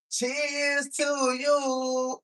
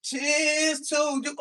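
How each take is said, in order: First: Stretched, slow toast. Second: Loud toast. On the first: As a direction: draw each word out. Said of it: "Let me try it one more time". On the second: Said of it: "One more again". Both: Shown as a demonstration.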